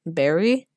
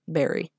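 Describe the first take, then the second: First: "Barry" with a strong upward lift at the end; "Barry" swooping up like a phone query; questioning rise. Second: Said in the usual way. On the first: Acted. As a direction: say "Barry" as a question, pitch climbing. Phone greeting, read as question.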